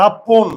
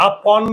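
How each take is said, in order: First: "আপন" loud and drawn out as aa-pon; closed o sound. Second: "আপন" drawn out as aa-pawn; wrong open vowel. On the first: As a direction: stress "আপন" with a rounded o at the end. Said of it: "চোয়াল না খুললে ওকার". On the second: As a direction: slowly say "আপন" with an open aw at the end. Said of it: "আমরা কি আপন বলি?". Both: Shown as a demonstration.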